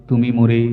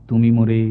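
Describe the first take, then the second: The two takes are said the same way.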